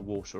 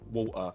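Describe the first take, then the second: First: It is said in a standard accent. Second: It is said in a London accent. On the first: "instead of like water" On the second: "her uh, sort of pronunciation of a lot of words, like saying water"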